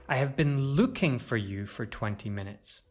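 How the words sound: The word looking carries the main stress. The action itself is the most important part. "To stress looking shows that the action is the most important part"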